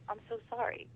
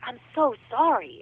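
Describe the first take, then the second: First: It is said with small, muted emotion. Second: It is said with big, strong emotion.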